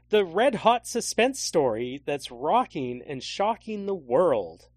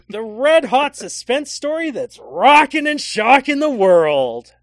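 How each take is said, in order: First: It is read flatly, without excitement. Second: It is read with lots of excitement.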